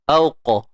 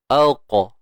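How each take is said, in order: The two takes are said the same way.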